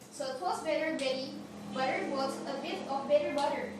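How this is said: It is said in an American accent.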